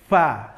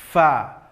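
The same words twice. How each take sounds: First: The sound is made by pressing both lips together. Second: The sound is made with upper teeth on lower lip. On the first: The speaker calls it wrong. "menempelkan dua bibir ... contohnya fa, salah" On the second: The speaker calls it right. "ujung gigi seri atas tempelkan ke bibir bawah"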